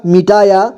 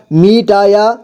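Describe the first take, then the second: First: Said in the usual way. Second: मिटाया as मि-टा-या; syllable by syllable. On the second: Shown as a demonstration. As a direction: sound out मिटाया in three parts. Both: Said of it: "एक ही बार में पढ़ेंगे".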